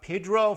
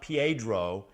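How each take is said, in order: First: The first syllable is a plain 'peh' sound. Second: The first syllable is a gliding 'pyeh' sound. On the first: This is how the man himself said his name. The speaker calls it right. "that's the way he pronounced it" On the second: This is not how the man himself said his name. The speaker calls it wrong. "not Piedro"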